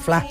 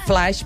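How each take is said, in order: First: The final consonant sound is dropped entirely. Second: The final consonant sound is pronounced clearly. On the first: "diuen fla" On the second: "quan diuen flash"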